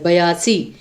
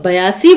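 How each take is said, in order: First: बयासी with full ब and long ई; careful pronunciation. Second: Said in the usual way. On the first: Shown as a demonstration. (बयासी को साफ़ बोलिए, ई लंबा खींचकर) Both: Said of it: "ब भी अपने एंड पे पूरा बोला जाता है".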